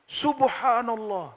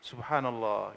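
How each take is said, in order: First: It is said loudly and strongly. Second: It is said a bit lower and softer. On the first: It is the amazement of a first visit. "keras itu subhanallahnya" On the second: The amazement fades on a later visit. "agak rendah sedikit"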